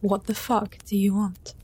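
It is said in an angry, commanding tone.

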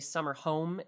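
The stress falls on the word home. The speaker calls it wrong. "Cary Elwes would say summer home instead of"

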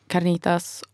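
It is said with a Mexican-sounding accent.

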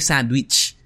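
The word is said with a Filipino accent. The speaker calls it right. "Because it's the way that Pinoy say it"

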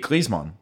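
The name is said the German way.

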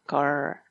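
American accent, with a retroflex R at the end.

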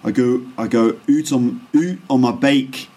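It is said in a Scottish accent. "my Scottish accent's not very good, but that's kind of how it sounds"

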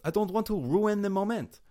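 It is said in a mock French accent.

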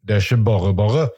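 It is said in a Bergen-like dialect.

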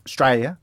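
It is said in an Australian accent.

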